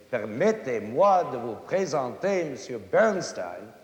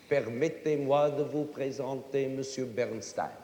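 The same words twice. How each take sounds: First: Foreigner's French with heavy uneven stresses; non-French accent. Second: Even, unaccented French syllables throughout "Permettez-moi de vous présenter Monsieur Bernstein"; equal syllable stress. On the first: Acted. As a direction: mangle the French with punched, bouncing accents. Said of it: "he's no Frenchman". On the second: Shown as a demonstration. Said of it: "every syllable in it is equal".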